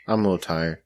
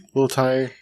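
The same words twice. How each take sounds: First: Said in the usual way. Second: "A little tired?" pitched up as a question; questioning tune. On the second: Real, not acted. Host checking on a tired cohost, questioning tune. Question, then same words as statement.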